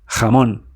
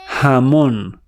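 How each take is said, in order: First: It starts with a rasping sound deep in the throat. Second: It starts with a soft h as in house. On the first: The speaker calls it right. "Spanish from Spain, jamón ... made deep in your throat" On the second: The speaker calls it wrong. "Latin Spanish, jamón, like house"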